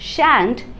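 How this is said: It is said with an American English vowel. "शांट US English में"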